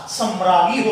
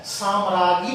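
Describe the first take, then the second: First: सम्राज्ञी with a short first 'a'; correct pronunciation. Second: साम्राज्ञी with a long first 'aa'; mispronunciation demo. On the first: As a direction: say सम्राज्ञी as sam-raa-gyee. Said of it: "सम्राज्ञी होता है". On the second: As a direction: say साम्राज्ञी as saam-raa-gyee. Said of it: "साम्राज्ञी नहीं होता". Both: Shown as a demonstration.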